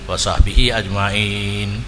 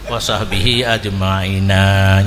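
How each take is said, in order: First: The last word ends on a bare n. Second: The last word ends with an added a. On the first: The speaker calls it wrong. "Nya hana hana cocok" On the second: The speaker calls it right. "Nya baru cocok"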